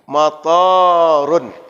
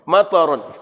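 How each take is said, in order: First: The vowel after the t is long. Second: The vowel after the t is short. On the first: It means airport. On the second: It means rain.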